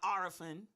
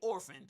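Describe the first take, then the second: First: The word has a regional, home-style pronunciation. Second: The word has a plain, standard pronunciation. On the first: "the way she pronounced the word" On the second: "she didn't say orphan"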